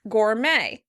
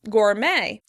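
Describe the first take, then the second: First: The stress is on the second syllable. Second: The stress is on the second syllable.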